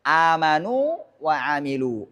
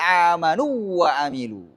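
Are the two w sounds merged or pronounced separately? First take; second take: separately; merged. First: The two w sounds are pronounced separately. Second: The two w sounds are merged into one. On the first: The speaker calls it right. "Dia harus dibaca jelas" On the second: The speaker calls it wrong. "Nggak boleh"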